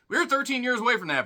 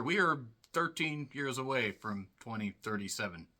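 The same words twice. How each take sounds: First: Higher, louder, fast; excited. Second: Said in the usual way. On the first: Shown as a demonstration. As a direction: rush it out, thrilled. Repeated line, excited take.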